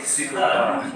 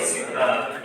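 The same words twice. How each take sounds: First: "superb" with a soft, barely released B; soft final B. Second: "superb" with a hard, popped final B; teacher shows the wrong "superb" with the B pushed out. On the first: Teacher gives students the right soft-B "superb". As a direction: let the B at the end of "superb" fade softly. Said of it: "we say superb". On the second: Teacher warns students off the hard-B "superb". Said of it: "We don't say superb". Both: Shown as a demonstration.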